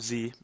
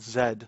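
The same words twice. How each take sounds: First: The letter is said as 'zee'. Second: The letter is said as 'zed'.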